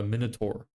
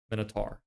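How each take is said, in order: First: Minotaur, last syllable like "tore"; minotaur with -tor ending. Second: Minotaur, last syllable like "tar"; Minotaur with -tar ending. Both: Shown as a demonstration. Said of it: "Minotaur or minotaur?".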